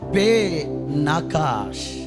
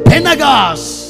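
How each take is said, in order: First: It is said as two parts, 'Pe Nagash'. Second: It is said as one word, 'Penagas'. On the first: The speaker calls it right. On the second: The speaker calls it wrong.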